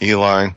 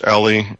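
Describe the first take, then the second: First: The name ends with an 'eye' sound. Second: The name ends with an 'ee' sound. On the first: The speaker calls it wrong. "I've heard it pronounced Ellie and Eli" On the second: The speaker calls it right. "Ellie is probably the more proper pronunciation"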